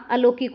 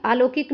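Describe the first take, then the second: First: अलौकिक with short opening a; correct short vowel. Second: अलौकिक as आलौकिक, long opening aa; mistaken long vowel. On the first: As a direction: start अलौकिक on a brief uh. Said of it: "अलौकिक होता है". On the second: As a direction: open अलौकिक on a stretched aa. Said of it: "अलौकिक नहीं होता". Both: Shown as a demonstration.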